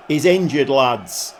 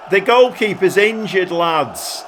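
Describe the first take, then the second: First: Said in the usual way. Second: Mock manager shouting from the touchline, a little higher; touchline call. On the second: Shown as a demonstration. Manager yelling at his players, mock touchline call. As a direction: call "goalkeeper's" out to the players like a coach. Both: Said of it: "Shall I do one of my touchline things".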